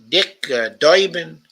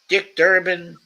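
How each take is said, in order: First: The name is said in a New York accent. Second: The name is said in an ordinary accent.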